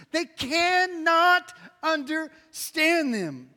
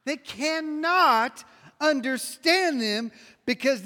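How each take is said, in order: First: Very slow, cannot held long and falling; stress on cannot. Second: Slow, weight on understand, falling; preacher stressing understand; slow emphatic line. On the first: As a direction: hammer the word cannot. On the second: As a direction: lean on understand and let it drop. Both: Shown as a demonstration. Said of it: "everybody say cannot".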